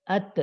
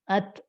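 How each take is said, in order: First: The final consonant is released quickly with a bounce. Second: The same.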